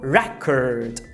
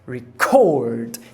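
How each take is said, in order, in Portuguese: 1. A tônica está na primeira sílaba. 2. A tônica está na segunda sílaba. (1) "a tônica é a primeira" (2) "passa a ser a sílaba tônica. Então eu vou aspirar"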